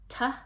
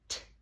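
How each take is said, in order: First: The consonant is followed by a short vowel. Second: The consonant is said alone without a vowel. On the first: The speaker calls it wrong. "We don't say t" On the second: The speaker calls it right. "we say t"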